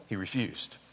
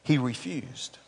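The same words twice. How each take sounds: First: A soft, dropped repeat of "He refused."; quiet. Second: Said in the usual way. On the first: Shown as a demonstration. Preacher lets the refusal sink in, quiet. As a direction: let "He refused." sink to a hushed, heavy close.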